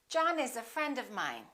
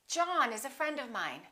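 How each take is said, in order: The two takes are said the same way.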